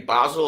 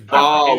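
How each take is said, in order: First: The name is said as two syllables, like 'Basil'. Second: The name is said as one syllable, like 'Bahl'. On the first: "when people say Basel, I always hear Sybil Fawlty going, Basil" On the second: "You pronounce it Ball"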